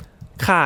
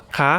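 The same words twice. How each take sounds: First: ค่ะ dropping in pitch; falling tone. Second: คะ rising high at the end; high question tone. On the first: Teacher showing the women's change, falling tone on ค่ะ. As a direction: let ค่ะ fall as in a statement. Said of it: "you change your". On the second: Teacher showing the women's change, high rising tone on คะ. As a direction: lift คะ as a question. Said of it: "if it's a question". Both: Shown as a demonstration.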